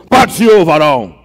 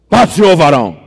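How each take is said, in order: Both takes have the same delivery.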